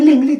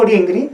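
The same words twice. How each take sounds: First: "lingli" with l sounds; "lingli", both syllables on l; L variant. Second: "ringri" with r sounds; "ringri", both syllables on r; R variant. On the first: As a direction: say "lingli" with L, not R. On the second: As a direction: say "ringri" with R, not L. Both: Shown as a demonstration. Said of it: "la R o la L y la N no son fonemas".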